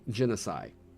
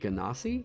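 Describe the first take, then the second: First: The word ends with a 'side' sound. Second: The word ends with a 'see' sound. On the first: This is how the speaker and friends always said it. "So I've been saying genocide" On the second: This is the official pronunciation. "some people pronounce it Ganassi, or like that's apparently the official pronunciation"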